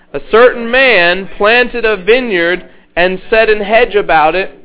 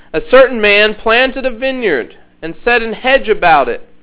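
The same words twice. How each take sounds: No difference in how they are said.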